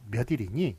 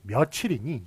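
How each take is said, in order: First: The second syllable starts with an n sound. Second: The second syllable starts with a ch sound. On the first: The speaker calls it wrong. "이렇게 발음하지 않고" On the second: The speaker calls it right. "이렇게 발음을 해요"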